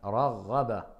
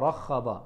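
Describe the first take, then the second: First: The middle consonant is a voiced gh sound. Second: The middle consonant is a harsh kh sound. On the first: The speaker calls it right. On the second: The speaker calls it wrong.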